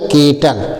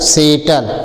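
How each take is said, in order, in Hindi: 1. यह शब्द k ध्वनि से शुरू होता है। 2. यह शब्द s ध्वनि से शुरू होता है। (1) "सी से क्या पढ़ा जाएगा" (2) "ये सेटल गलत है"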